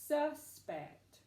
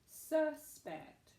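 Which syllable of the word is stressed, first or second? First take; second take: first; first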